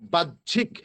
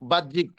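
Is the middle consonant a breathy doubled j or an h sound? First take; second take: breathy j; h sound. First: The middle has a doubled j ending breathy. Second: The middle has an h sound, not breathy doubled j. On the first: The speaker calls it right. "উচ্চারণটা হবে বাহ্যিক" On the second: The speaker calls it wrong. "বাহ্যিক বলি না"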